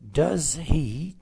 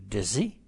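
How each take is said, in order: First: The two words are said separately. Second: The two words are blended into one.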